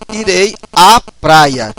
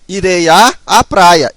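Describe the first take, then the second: First: One fused 'a' sound comes before praia. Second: Two separate 'a' sounds come before praia. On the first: The speaker calls it right. "esses dois vão se fundir apenas em uma em um a" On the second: The speaker calls it wrong. "eu não posso falar assim, ó"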